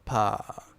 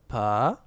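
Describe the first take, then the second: First: The pitch falls steadily downward. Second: The pitch rises upward.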